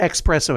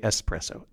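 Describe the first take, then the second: First: The first syllable is said with an x sound. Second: The first syllable is said with a plain s sound. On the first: The speaker calls it wrong. "You don't say espresso" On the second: The speaker calls it right. "You say espresso"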